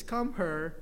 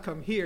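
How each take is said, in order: First: Put-on "her" in place of here, Filipino accent; Filipino dialect. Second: Said in the usual way. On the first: Cat's owner correcting the visitors, Filipino dialect. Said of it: "You're saying it wrong. It's not". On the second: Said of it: "You're saying it wrong".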